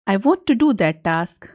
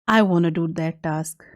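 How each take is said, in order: First: 'Want to' is said slowly as two full words. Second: 'Want to' is said fast, blended into 'wanna'.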